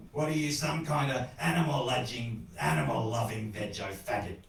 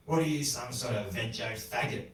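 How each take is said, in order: First: Put-on grumpy old man pressing harder; insistent repeated challenge. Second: Mildly grumbled challenge; grumbling old man. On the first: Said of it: "he asked again". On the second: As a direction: grumble it with little force. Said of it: "the old man grumbled". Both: A narrator's reading.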